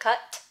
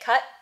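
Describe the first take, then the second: First: The final T is audibly released with a puff. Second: The final T is held with no audible release. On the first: "instead of cut" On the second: "I tend to say cut instead of cut"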